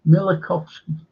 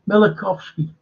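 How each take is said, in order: The two takes are said the same way.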